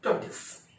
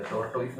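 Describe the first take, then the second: First: टॉर्टोइस as "CHAW-tis", short second syllable; correct tortoise pronunciation. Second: टॉर्टोइस as spelt, "tor-TOYS"; wrong tortoise pronunciation. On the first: Teacher gives the word to use instead, correct pronunciation. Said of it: "उसको बोलेंगे". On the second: Teacher shows what not to say from today, wrong pronunciation. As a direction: say टॉर्टोइस with a full "toys" ending. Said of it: "नहीं बोलेंगे आज के बाद". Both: Shown as a demonstration.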